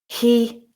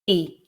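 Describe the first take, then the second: First: The word is said in full with h. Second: The word is reduced with no h. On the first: "I'll read the full form" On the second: "the weak form with the h sound dropped"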